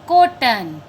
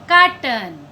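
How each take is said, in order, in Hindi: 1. पहला स्वर बंद 'o' जैसा है। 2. पहला स्वर खुला 'aa' जैसा है। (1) "क्या हम इसको कोटन बोलते हैं? नो, यह भी गलत है।" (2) "यह गलत है।"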